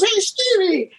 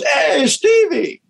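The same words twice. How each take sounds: First: Quick greeting. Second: High, slow, drawn-out hey Stevie; slow greeting. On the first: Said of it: "He goes". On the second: Blind Jeff greeting Stevie from the street, slow drawn-out. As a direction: stretch the greeting, knowing who it is. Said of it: "And he goes". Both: Retold or imitated.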